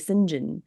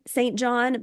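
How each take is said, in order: First: It is said as one blended word. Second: It is said as two full words. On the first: "We're going to say Sinjin" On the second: "name their son Saint John"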